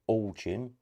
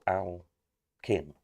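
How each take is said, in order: First: The first syllable sounds like 'all', then 'chin'. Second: The first syllable sounds like 'Al', then 'kin'. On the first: "is it all chin, as in all of these" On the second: "or kin?"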